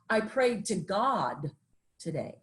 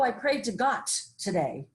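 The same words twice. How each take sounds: First: The final d of God is fully voiced. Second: The final d of God is voiceless, like t. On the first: The speaker calls it right. "is what we call a voiced consonant" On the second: The speaker calls it wrong. "that wouldn't sound right"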